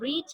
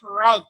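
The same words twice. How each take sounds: First: It is said with a long vowel, like reed. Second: It is said with a short vowel, like red. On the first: The verb is in the present tense. The speaker calls it wrong. "We cannot pronounce it read because the read pronunciation we used in the present indefinite tense" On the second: The verb is in the past tense. The speaker calls it right. "but we pronounce it read"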